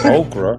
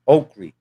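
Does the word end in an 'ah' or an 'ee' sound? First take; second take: ah; ee. First: The word ends in an 'ah' sound. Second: The word ends in an 'ee' sound. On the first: The speaker calls it wrong. "I can say okra. I can read the package that it's spelled okra" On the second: The speaker calls it right. "the right pronunciation is okri"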